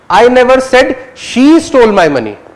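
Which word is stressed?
she. The word "she" carries the main stress. "you're focusing on whether she or he"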